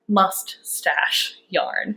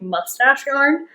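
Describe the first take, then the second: First: The two words are said separately. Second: The two words are run together. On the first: The speaker calls it right. "I say it separate like that" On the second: The speaker calls it wrong. "sometimes I say like"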